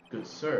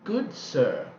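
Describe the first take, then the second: First: Puzzled echo. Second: Slow, formal "Good sir" with a falling close; stately old aunt. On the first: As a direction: echo her words, baffled. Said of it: "is she talking about me?". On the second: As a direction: greet him like a haughty old lady. [name] greets Phoenix. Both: Acted.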